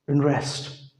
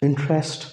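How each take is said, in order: First: "इंटरेस्ट" as "inrest"; American "इंटरेस्ट", N straight into R; American silent T. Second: Said in the usual way. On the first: Shown as a demonstration. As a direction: drop the first T in "इंटरेस्ट". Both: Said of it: "इसी तरह".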